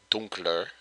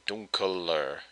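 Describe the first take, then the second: First: "dunkler" said in two syllables, dunk-ler, with no e between k and l; correct form without e. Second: "dunkler" said as dun-ke-ler, an extra e sounded between k and l; wrong form with extra e. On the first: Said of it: "You actually drop the E". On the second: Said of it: "you don't say dunkler". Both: Shown as a demonstration.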